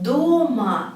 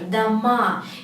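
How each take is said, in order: First: The stress is on the first syllable. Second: The stress is on the last syllable. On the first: It means at home. "if you put the stress to the first syllable" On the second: It means houses, plural. "if the stress goes to the last letter"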